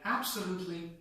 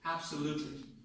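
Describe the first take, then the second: First: The stress is on the first syllable. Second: The stress is on the third syllable. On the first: The word is used in a combination. "the first one is correct when we use this word in combinations" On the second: The word stands on its own. "If this word works on its own, the main stress comes on the third syllable"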